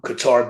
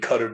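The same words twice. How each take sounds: First: It is said with the common American pronunciation. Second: It is said closer to the original Arabic pronunciation. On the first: "Qatar being American" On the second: "Qatar being another pronunciation"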